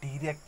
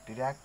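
First: The first syllable has a full 'dye' vowel. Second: The first syllable is short and lightly reduced. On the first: The speaker calls it wrong. "डायरेक्ट नहीं" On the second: The speaker calls it right. "थोड़ा सा एकदम हल्का सा लेना है ना"

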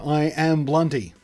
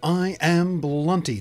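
First: It is said in a relaxed, natural way. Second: It is said formally and overpronounced.

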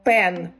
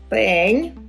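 First: The final n sound is hard. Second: The final n sound is soft. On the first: The speaker calls it wrong. "наче у нас нема цієї букви" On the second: The speaker calls it right. "В кінці в нас стоїть буква м'який знак"

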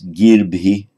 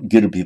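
First: The first vowel is held long. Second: The first vowel is kept short. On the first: The speaker calls it right. "So it's girbhi" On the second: The speaker calls it wrong. "not girbhi"

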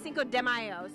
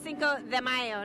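First: It is pronounced with an anglicized English accent. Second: It is pronounced with a Spanish-sounding accent. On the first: The speaker calls it wrong. "not Cinco de Mayo" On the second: The speaker calls it right.

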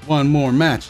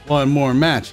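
The two takes are said the same way.

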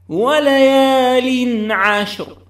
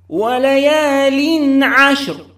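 The two takes are said the same way.

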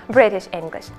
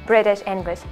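The two takes are said the same way.

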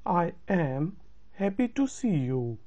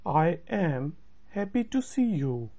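No difference in how they are said.

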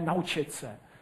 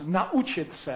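First: The a and u merge into one glide. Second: The a and u are split by a catch. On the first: The speaker calls it wrong. "ale ne" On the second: The speaker calls it right. "pak je mezi nimi vždy ráz"

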